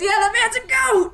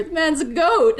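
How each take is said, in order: First: Very high, cracking-up shout; uproarious laughing. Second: Raised, loud voice of a joking man; amused exclamation. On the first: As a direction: shout it through helpless laughter. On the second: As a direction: call out the joke, pitched up. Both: Acted. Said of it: "the man just laughs and goes".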